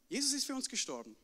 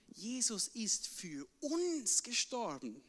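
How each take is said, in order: First: It is said without special stress on uns. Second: It is said with strong stress on uns.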